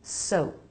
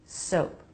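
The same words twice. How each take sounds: First: "Soap" ending on closed lips, no puff; P not released. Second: "Soap" ending in a light puff of P; light P release. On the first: Teacher showing the other option, "Soap" with unreleased P. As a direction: stop the final P of "Soap" without releasing it. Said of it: "Or not". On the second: Teacher showing the first option, "Soap" with lightly released P. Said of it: "A light release of the P". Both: Shown as a demonstration.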